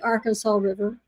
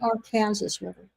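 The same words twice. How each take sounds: First: It is said the usual way. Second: It is said the Kansas way.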